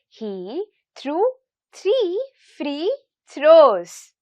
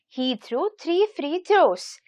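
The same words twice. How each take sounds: First: It is said at a slow pace. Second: It is said at a medium pace.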